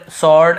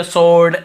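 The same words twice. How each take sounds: First: स्वॉर्ड as "sawd", open vowel, w silent; alternative pronunciation. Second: Louder स्वॉर्ड as "sord", rounded o, w silent; alternative pronunciation. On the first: Teacher allows learners both variants: स्वॉर्ड as open "sawd". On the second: Teacher allows learners an accent variant: स्वॉर्ड as "sord". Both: Shown as a demonstration. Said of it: "ऐसे दोनों बोलते हैं".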